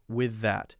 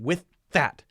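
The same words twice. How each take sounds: First: The voice dips but continues between the words. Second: The voice stops completely between the words. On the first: The speaker calls it right. "the voice continues throughout" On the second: The speaker calls it wrong. "I'm not saying with that. It's not a stop"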